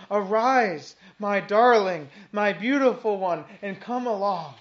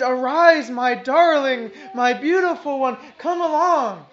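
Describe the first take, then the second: First: Said in the usual way. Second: Fervent loud call. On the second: Shown as a demonstration. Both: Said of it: "He says".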